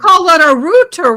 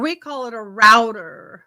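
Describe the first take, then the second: First: Router is said the other speaker's way, like rooter. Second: Router is said the speaker's own way, like rowter.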